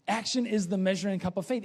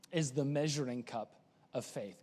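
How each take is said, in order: First: Brisk full-voice repeat; fast and firm; fast, firm congregational recitation. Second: Quiet. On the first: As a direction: say it together, quickly. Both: Shown as a demonstration. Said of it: "you know this".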